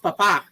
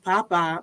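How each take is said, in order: First: The stress is on the last syllable. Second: The stress is on the first syllable. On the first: It means father or priest. The speaker calls it right. "accents do matter" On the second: It means potato. The speaker calls it wrong. "I called the priest potato, not stressing"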